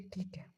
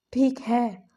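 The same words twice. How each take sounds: First: A soft, dropped "ठीक है"; hushed grudging "ठीक है"; quiet. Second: A much louder, firm "ठीक है"; emphatic repeat, louder. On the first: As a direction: say "ठीक है" softly, almost swallowed. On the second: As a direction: punch out "ठीक है" with force. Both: Retold or imitated.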